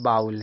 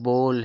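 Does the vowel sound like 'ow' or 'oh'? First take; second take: ow; oh. First: The vowel sounds like 'ow'. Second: The vowel sounds like 'oh'. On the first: The speaker calls it wrong. "जबकि यह बाउल नहीं है" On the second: The speaker calls it right. "यह बोल है"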